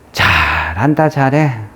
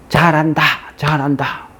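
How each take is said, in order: First: It sounds sarcastic, meaning the opposite. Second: It sounds like sincere, encouraging cheering.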